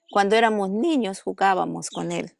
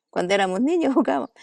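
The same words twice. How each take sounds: First: Said in the usual way. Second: Repeats it with a real laugh breaking in, a bit higher and quicker. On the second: Real, not acted. Telling the interviewer about childhood games, laughing. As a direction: laugh through the happy memory.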